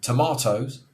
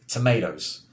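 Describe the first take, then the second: First: It is said in a British accent. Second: It is said in an American accent. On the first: "my favourite one is tomatoes" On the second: "the Americans would say tomatoes"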